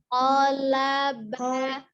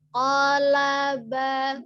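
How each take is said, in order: First: The vowels in the word are kept short. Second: The same.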